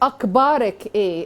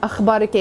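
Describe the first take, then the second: First: The consonant is a plain hard k sound. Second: The consonant is a raspy throat kh sound. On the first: The speaker calls it wrong. "the kha comes out as ka" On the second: The speaker calls it right. "hold her responsible for saying that kha"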